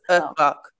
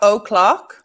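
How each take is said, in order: First: The first vowel is reduced to a schwa. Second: The first vowel is a full, clear vowel.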